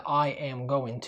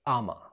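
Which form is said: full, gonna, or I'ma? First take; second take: full; I'ma. First: Every word is said in full. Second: The phrase is squeezed into one short word. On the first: "قلنا قبل كده I am going to" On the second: "النهاردة تقدر تقول أما"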